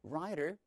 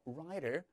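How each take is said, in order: First: The middle t is a soft, quick flap. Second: The same.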